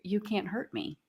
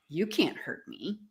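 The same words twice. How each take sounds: First: It is said in a calm manner. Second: It is said with a defiant attitude.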